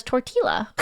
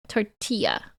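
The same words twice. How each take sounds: First: "tortilla" with a plain English L sound; Canadian reading. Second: "Tortilla" with the double L said as Y; corrected pronunciation. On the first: Streamer explaining her Canadian brain, "tortilla" with a hard L. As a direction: say "tortilla" as tor-till-a, L pronounced. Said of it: "My Canadian brain just reads it as". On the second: Streamer practising double L as Y, corrected pronunciation of "Tortilla". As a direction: say "Tortilla" as tor-tee-ya. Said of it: "Double L equals Y". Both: Shown as a demonstration.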